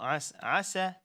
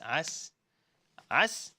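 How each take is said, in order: First: The word ends with an added a vowel. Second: The word ends on a silent s sound. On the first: The speaker calls it wrong. "It's not as asa" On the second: The speaker calls it right. "it is just as as"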